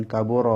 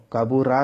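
First: কাবু র ending in a thick, rounded "ro"; heavy RA. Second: কাবু রা ending in an open, thin "raa"; thin RA vowel. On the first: Teacher shows students the correct reading, thick "ro" in কাবু র. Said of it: "র মধ্যে জবর হলে র মোটা হয়". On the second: Teacher shows students the mistake, thin "raa" ending in কাবু রা. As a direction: end কাবু রা on a light "aa" instead of "o". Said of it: "যেন না বলেন". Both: Shown as a demonstration.

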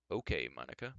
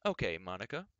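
First: Lower, friendly reassuring tone; melodious and friendly. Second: Said in the usual way. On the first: A narrator's reading. Wizard soothing a nervous client, melodious and friendly. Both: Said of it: "trying to sound as melodious and friendly".

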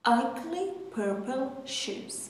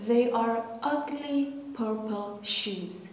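First: Words drawn out, slow; slow repeat. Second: Slow careful reading; slow model sentence. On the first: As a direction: repeat slowly for learners. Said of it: "model sentence repeated". (تکرار آهسته) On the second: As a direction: read slowly for learners. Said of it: "model sentence". (آهسته و شمرده) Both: Shown as a demonstration.

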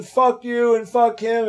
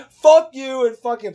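First: High, loud, slow furious curse; angry girlfriend yelling. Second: High, loud, incredulous "Fuck you and fuck him"; mock echoed curse. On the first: Retold or imitated. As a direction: spit "Fuck you and fuck him" out slowly, loud and high. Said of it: "she starts screaming". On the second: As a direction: throw "Fuck you and fuck him" back in shock. [name] echoing her curse.

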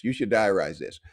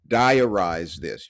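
First: Said in the usual way. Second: "diarize this" drawn out slowly, each syllable weighed; slow down and lean on "diarize"; slow emphatic. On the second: Shown as a demonstration. Host repeats a colleague's phrase, drawing out "diarize" slowly. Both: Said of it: "I like what Kirk said".

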